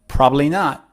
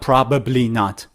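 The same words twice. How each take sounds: First: The phrase is said quickly and shortened. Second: The phrase is said slowly with all syllables. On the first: The speaker calls it right. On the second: The speaker calls it wrong.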